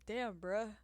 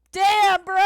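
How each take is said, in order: First: Said in the usual way. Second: Very loud, high outburst; full-volume cry of offence; indignant yell. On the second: Real, not acted. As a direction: yell it out, wounded and outraged. Outburst at being called delusional.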